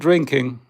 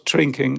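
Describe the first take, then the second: First: The word is said with English-like pronunciation. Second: The word is said with a German accent. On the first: The speaker calls it right. "It's called drinking" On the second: The speaker calls it wrong. "not drinking. Like it's Germans doing it always wrong"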